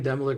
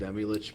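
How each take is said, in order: First: The name ends with a hard 'lik' sound. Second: The name ends with a soft 'lich' sound. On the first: "I like saying Demolik more" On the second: "I know it's Demilich because I'm a Dungeons and Dragons nerd"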